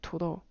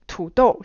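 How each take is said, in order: First: The syllables are flattened to quick level pitches. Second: Both syllables carry full third and fourth tones. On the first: "He said it more like 土豆. Da da da da" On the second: "Three, four"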